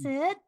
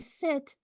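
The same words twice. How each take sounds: First: The voice rises like a question. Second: The voice falls like a command.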